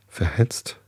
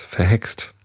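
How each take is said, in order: First: "Verhetzt" with a tz sound, questioning; questioning misreading. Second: "Verhext" with a ks sound for the X; corrected reading. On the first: Reader puzzles over Fraktur letters, unsure "Verhetzt" with tz. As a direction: try out "Verhetzt" with tz before the final t. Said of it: "ach, verhext, das ist ein X". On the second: Reader now recognises the X, corrected "Verhext" with ks. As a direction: say "Verhext" with ks before the final t. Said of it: "das ist ein X". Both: Shown as a demonstration.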